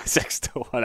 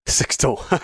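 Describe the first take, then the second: First: "six to one" breathed softer through a laugh. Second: Said in the usual way. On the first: Real, not acted. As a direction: laugh it out, amused at the long odds. Teasing repeat of the odds.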